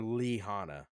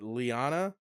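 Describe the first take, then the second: First: The name has a breathy h sound inside. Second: The name is said without an h sound.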